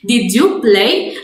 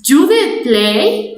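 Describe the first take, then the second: First: "Did you play?" slow, with a rise on "play"; correct question. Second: "You did play" said slowly as a statement; slow, flat statement order; wrong word order. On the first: Teacher modelling the right question, slow rising. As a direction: ask it slowly, auxiliary first. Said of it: "You have to tell, tell in English". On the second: Teacher showing the wrong question form, slowly. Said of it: "I don't going to say". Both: Shown as a demonstration.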